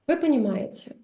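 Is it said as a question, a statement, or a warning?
statement. It is said as a plain, settled statement. You see, you understand. "which means you see, you understand"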